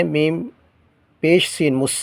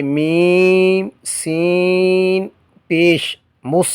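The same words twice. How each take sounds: First: Said in the usual way. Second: Slow chanted میم سین پیش with the vowel sign last, then مس; correct spelling, drawn out. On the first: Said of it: "نہیں، ایسے نہیں پڑھیں گے". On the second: Shown as a demonstration. Teacher models the correct spelling slowly for students. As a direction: stretch میم and سین before saying پیش. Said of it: "جیسے".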